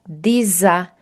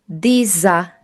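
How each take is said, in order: The two takes are said the same way.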